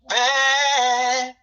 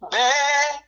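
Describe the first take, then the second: First: The word is held for a medium length. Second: The word is said short and clipped.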